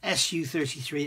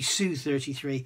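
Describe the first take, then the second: First: Su is spelled out as two separate letters. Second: Su is said as one single syllable. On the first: The speaker calls it wrong. "We say Su-33" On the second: The speaker calls it right. "it should be Su-33"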